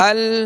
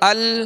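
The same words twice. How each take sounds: The two takes are said the same way.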